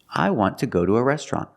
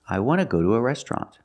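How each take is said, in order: First: 'Want to' is said with a T sound. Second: 'Want to' becomes 'wanna' without a T. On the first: "I want to, after a consonant, it's t" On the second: "want to can be pronounced wanna with no T in it"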